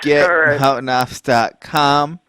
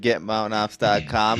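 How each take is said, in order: First: It is said very slowly. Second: It is said at normal speed.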